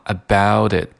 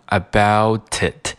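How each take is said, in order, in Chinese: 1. 这个 t 是轻微的舌尖闪音。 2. 这个 t 是完整的、不闪音的 t。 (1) "而是读成了about it" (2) "我没有读成about it"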